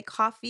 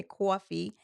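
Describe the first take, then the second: First: "coffee" with an open ah, "cahfee"; unrounded first vowel in "coffee"; non-New York pronunciation. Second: "coffee" with a rounded aw, "cawfee"; New York aw vowel in "coffee"; New York pronunciation. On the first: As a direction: say "coffee" as "cah-fee". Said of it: "You're not gonna say coffee". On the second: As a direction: say "coffee" as "caw-fee", like a New Yorker. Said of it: "you're gonna say coffee". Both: Shown as a demonstration.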